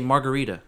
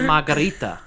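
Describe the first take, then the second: First: The word is said with plain English pronunciation. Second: The word is said with a Spanish accent. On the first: The speaker uses their natural pronunciation. The speaker calls it right. "You can say margarita" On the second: The speaker is putting on an affected foreign pronunciation. The speaker calls it wrong. "They add a Spanish accent"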